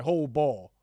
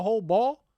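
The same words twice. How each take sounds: First: Said in the usual way. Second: Louder, higher call; mock yell. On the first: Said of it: "They like". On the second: Nobody on team yelling, loud call. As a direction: bark it across the court. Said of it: "Nobody yell".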